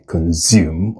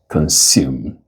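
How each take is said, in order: First: The consonant after "con" is a buzzing Z. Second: The consonant after "con" is a hissing S. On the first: The speaker calls it wrong. "The S in this word is not Z" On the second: The speaker calls it right. "it is consume with voiceless fricatives"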